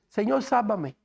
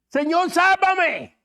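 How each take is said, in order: First: It is said calmly, without feeling. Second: It is exclaimed with alarm and fear.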